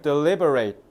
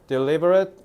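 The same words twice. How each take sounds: First: The final syllable sounds like 'eight'. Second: The final syllable is a short 'it' sound. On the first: It is a verb meaning to consider carefully. "eight 발음으로 끝낸다" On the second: It is an adjective meaning careful or planned. "제가 방금 발음을 deliberate 뒤에를 어트 발음했죠"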